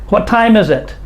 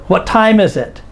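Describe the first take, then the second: Both takes have the same delivery.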